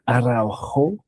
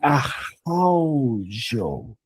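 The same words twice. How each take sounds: First: The name has a Spanish pronunciation. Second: The name has a Brazilian pronunciation, R like H. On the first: "the more Spanish pronunciation" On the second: "in Brazilian, it would be Araujo, because the R is like an H"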